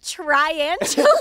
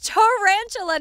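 First: The word begins with a 'tri' sound. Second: The word begins with a plain 'ta' sound. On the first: The speaker calls it wrong. "not triantula" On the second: The speaker calls it right. "It's tarantula"

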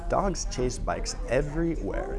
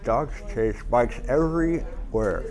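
First: The words sound clear, with nothing in the mouth. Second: The words sound muffled, with something in the mouth. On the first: "read it again without the pencil" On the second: "read a paragraph with a pencil in your mouth"

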